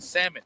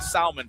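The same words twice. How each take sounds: First: The word is said with a silent L. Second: The word is said with the L sounded. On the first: The speaker calls it right. "you said it properly" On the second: The speaker calls it wrong. "I was saying salmon for like the first twenty years of my life"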